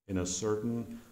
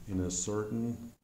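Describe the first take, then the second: The two takes are said the same way.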